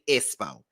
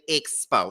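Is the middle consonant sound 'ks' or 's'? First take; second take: s; ks. First: The middle consonant sounds like a plain 's'. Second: The middle consonants sound like 'ks'. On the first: "She say E S S P O" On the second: "She don't say expo"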